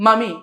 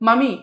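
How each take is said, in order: No difference in how they are said.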